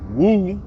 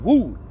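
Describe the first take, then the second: First: The word is said with a low pitch. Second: The word is said with a high pitch. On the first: "Wu on the bottom, the low end" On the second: "Wu on the top end"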